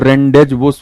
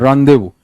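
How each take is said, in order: First: The z and s sounds are pronounced. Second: The z and s sounds are silent. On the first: The speaker calls it wrong. "खुद ही नहीं बोलने में अच्छा लग रहा है" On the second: The speaker calls it right. "रांदेबू is the right pronunciation"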